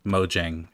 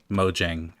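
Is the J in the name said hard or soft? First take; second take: hard; hard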